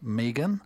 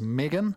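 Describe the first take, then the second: First: The name is said in a New Zealand accent. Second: The name is said without a New Zealand accent.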